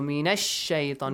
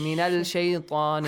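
First: The L sound merges into a doubled sh. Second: The L sound is pronounced before the sh. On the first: The speaker calls it right. "شمسي. So من الشيطان" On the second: The speaker calls it wrong. "You don't say"

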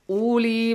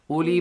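First: The vowel after the L is stretched long. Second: The vowel after the L is kept short. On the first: The speaker calls it wrong. "You gotta read this uli ba'asin with waw maddi. But the rule says no" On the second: The speaker calls it right. "You gotta read it this way"

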